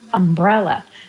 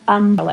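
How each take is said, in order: First: The stress is on the second syllable. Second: The stress is on the first syllable. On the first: This is how West Coast speakers say it. "here we say umbrella" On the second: This is how East Coast speakers say it. "people in the East Coast say umbrella"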